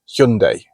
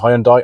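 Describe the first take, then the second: First: The name is said in the newer, official way. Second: The name is said in the older, familiar way.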